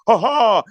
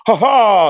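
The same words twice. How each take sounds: First: Mock laugh. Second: Dry, spoken mock laugh "Ha ha". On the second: Imitating the scientist laughing at his opponent, mocking. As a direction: fake a condescending little laugh. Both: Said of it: "laughed at him".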